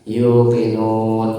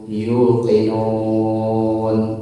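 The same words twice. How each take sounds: First: The long vowel is held for two counts. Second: The long vowel is held for six counts.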